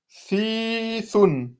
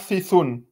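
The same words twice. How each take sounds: First: The first vowel is long. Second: The first vowel is short. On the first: The speaker calls it right. "il y a une prolongation, il faut la dire" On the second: The speaker calls it wrong. "et non pas thithun"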